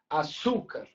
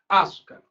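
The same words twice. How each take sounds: First: The stress is on the second syllable. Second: The stress is on the first syllable. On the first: The speaker calls it right. "Será que a sílaba tônica é o Su? ... Tá mais parecido com o nosso som" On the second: The speaker calls it wrong. "será que a sílaba tônica é o A? Eu vou falar açúcar. Não é assim que a gente fala"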